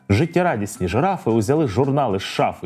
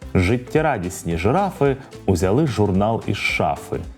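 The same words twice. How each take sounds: First: The sentence is said at a fast pace. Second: The sentence is said at a medium pace. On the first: "Ну а тепер спробуємо швидко" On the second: "А тепер давайте трохи швидше"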